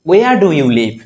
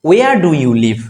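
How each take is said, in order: The two takes are said the same way.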